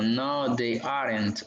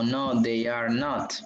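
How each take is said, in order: First: Said in the usual way. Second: "No, they are not" said slowly, every word apart; slow full form. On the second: Shown as a demonstration. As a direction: spell out "are not" slowly and clearly, no contraction.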